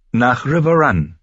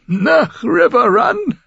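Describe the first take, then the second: First: Said in the usual way. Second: High, slow, laughing question; old lord giggles at Caitlin's plan; giggling old lord. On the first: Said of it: "bestätigte Caitlin". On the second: A narrator's reading. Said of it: "Er kicherte".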